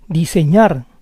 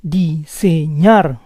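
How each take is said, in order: First: Said in the usual way. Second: Diseñar split as di-se-ÑAR; syllable by syllable. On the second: Shown as a demonstration. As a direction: say Diseñar in parts, stressing ÑAR. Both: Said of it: "try to understand the rules".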